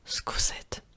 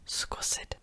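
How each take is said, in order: First: The word begins with a voiceless s sound. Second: The word begins with a voiceless s sound.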